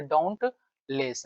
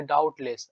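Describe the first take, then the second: First: "डाउटलेस" slowly, with an n, "daunt-less"; as written. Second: "डाउटलेस" without the n, "doubt-less"; memory-aid pronunciation. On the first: Teacher showing the written word, slow "daunt-less" with n. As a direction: stretch it out and sound the n in "डाउटलेस", "dauntless". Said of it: "मान लो ऐसा डाउट लिखा हो". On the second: Teacher telling students how to remember it, n-less "doubt-less". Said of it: "लेकिन पढ़ेंगे इसको डाउटलेस". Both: Shown as a demonstration.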